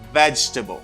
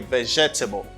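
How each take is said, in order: First: It is said with only three syllables. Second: It is said with four full syllables. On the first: The speaker calls it right. "You don't pronounce this syllable" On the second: The speaker calls it wrong. "Only I hear sometimes some people say vegetable"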